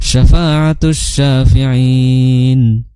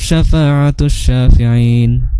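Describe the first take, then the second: First: The final long vowel is held for four counts. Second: The final long vowel is held for two counts. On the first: "empat harokat" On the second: "dua harokat"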